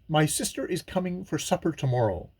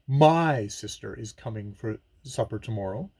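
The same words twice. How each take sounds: First: All words carry equal stress, with no emphasis. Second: The word 'my' carries strong emphasis. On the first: It simply gives the information. "A neutral reading or equal stressing gives us the information" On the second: The sister is mine, not someone else's. "stress my"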